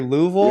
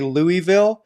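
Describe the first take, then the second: First: It is pronounced the way Southern locals say it. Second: It is pronounced the way outsiders say it. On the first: The speaker sounds like a local. The speaker calls it right. "you say Louisville like a true Southerner" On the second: The speaker is not from the region. The speaker calls it wrong. "you don't say Louisville"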